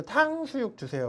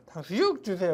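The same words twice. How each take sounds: First: 탕수육 raised high at the start; stress on 탕수육. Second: Said in the usual way. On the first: Shown as a demonstration. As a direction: pitch up on 탕수육 주세요. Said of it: "그런다고 뭐라고 그러지 않죠". (탕수육에 높게 강세) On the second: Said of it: "그래도 뭐라고 그러지 않죠".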